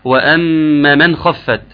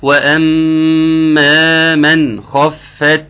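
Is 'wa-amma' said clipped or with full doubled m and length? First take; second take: clipped; full. First: The doubled m and long vowel are clipped short. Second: The doubled m and long vowel are fully held. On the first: The speaker calls it wrong. "ما تقولش إيه وأما من خفت" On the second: The speaker calls it right. "لا، وأما من خفت موازينه"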